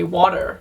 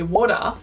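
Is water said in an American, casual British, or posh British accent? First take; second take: American; casual British. First: American accent with a sharp final R. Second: Long A vowel, final R dropped, casual British.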